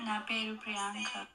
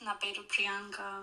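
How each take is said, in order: First: The voice sounds soft and less distinct. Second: The voice sounds very clear and distinct. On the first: The speaker calls it wrong. "ఫస్ట్ది సాఫ్ట్గా ఉంది" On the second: The speaker calls it right. "ఇది చాలా క్లియర్గా క్లారిటీగా ఉంది"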